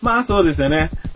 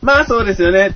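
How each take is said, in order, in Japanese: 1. 少しだけ高さと大きさを上げて言っています。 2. いちばん高い高さと大きさで言っています。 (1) "音を上げていくだけ" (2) "音を上げていくだけ"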